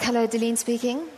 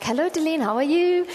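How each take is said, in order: First: Curt, mildly annoyed phone greeting; irritated. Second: Put-on higher, lilting Indian-accented greeting. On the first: Retold or imitated. Busy preacher answering an unknown number, mildly irritated. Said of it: "I'm really not hiding my irritation". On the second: Woman caller greeting Deline by phone, imitated Indian accent. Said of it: "a woman on the line with an Indian accent".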